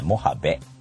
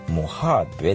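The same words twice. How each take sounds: First: The last syllable starts with a b sound. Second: The last syllable starts with a v sound. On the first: The speaker calls it right. "アッカンベのベです。これが正しい読み方だそうです。" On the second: The speaker calls it wrong. "モハベでもないという"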